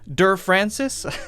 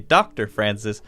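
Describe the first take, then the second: First: The title is said as the short syllable 'der'. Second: The title is said as the full word 'doctor'. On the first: The speaker calls it wrong. "we don't say" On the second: The speaker calls it right. "We say Doctor Francis"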